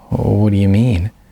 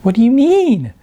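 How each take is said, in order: First: It is said sincerely, with a sigh. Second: It is said in a teasing, mimicking voice.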